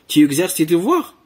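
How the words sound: The voice rises at the end. It asks a question.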